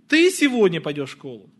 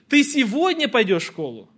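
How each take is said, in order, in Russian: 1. Ударение падает на слово «ты». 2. Ударение падает на слово «сегодня». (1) "Ты или кто-то другой?" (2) "Сегодня или завтра?"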